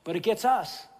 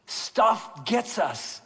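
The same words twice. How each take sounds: First: It gets us, said in the plain run of talk; just say it plainly. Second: Stuff gets us, very slow with weight on gets; slow emphasis. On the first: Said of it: "stuff doesn't get 'em". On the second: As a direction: drive home gets, slowly. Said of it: "It really does". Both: Shown as a demonstration.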